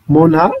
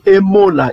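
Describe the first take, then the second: First: The word starts directly with an M sound. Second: The word starts with a short vowel before M. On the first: The speaker calls it right. "Mona, ça veut dire fidèle" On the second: The speaker calls it wrong. "ils disent Emona. Ils prononcent avec le Aleph"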